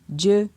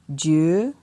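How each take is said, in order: First: The syllable has a mid tone. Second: The syllable has a rising tone. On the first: "ton moyen" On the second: "ton montant"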